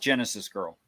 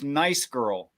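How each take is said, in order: First: The name begins with a G sound. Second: The name begins without a G sound. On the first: The speaker calls it wrong. "not Genesis girl" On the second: The speaker calls it right. "I think it's pronounced nice girl"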